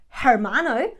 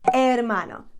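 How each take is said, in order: First: The word begins with an audible H sound. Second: The word begins with no H sound. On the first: The speaker calls it wrong. "We don't say hermano" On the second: The speaker calls it right. "We say hermano. ... don't pronounce that H"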